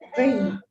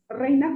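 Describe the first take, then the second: First: The R is said as in La Paz. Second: The R is said the standard way. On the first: "una persona de La Paz, por ejemplo, que pronuncia la, la palabra, la R" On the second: "como tiene que ser"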